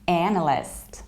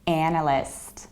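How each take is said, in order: Both takes have the same delivery.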